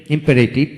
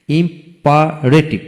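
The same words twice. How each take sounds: First: Said in the usual way. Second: imperative in slow beats, im, pa, retiv; split into syllables. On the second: Shown as a demonstration. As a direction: gaps inside imperative. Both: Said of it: "তিনটি syllable থাকে".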